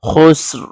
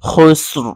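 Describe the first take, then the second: First: The word stops abruptly on the 'r' sound. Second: The word stops abruptly on the 'r' sound.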